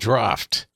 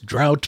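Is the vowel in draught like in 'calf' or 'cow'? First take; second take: calf; cow. First: The vowel sounds like the one in calf. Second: The vowel sounds like the one in cow. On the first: The speaker calls it right. "It's pronounced draft" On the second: The speaker calls it wrong. "He again mispronounced it as drought"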